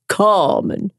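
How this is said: The name is drawn out in a Southern American accent. Someone else mispronounced the name. The speaker calls it wrong. "her southern mouth was going to take that Spanish name and synthesize it into that same extraordinary polysyllabic thing"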